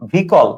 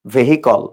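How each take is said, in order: First: ভেহিকল as two syllables, "VEE-kol"; spoken pronunciation. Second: ভেহিকল read as written, "ve-hi-kol"; spelling pronunciation. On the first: Teacher answering own question on pronunciation, ভেহিকল as "vee-kol". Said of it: "উচ্চারণটা কি বলো?". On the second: Teacher answering own question on spelling, ভেহিকল as "ve-hi-kol". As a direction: give ভেহিকল three syllables with the h heard. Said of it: "বানানটা কি বলো?". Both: Shown as a demonstration.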